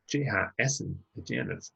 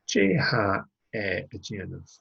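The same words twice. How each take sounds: First: "essen" said in full as the emphatic pronoun. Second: Said in the usual way. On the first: Shown as a demonstration. Teacher models the emphatic form, "essen" stressed. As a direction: lean on "essen" to make it emphatic. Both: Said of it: "we can make that emphatic".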